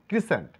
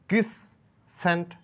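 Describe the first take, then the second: First: The middle s sound is single. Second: The middle s sound is doubled. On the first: The speaker calls it right. "বলবো ক্রিসেন্ট" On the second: The speaker calls it wrong. "ক্রিসসেন্ট বলবো না"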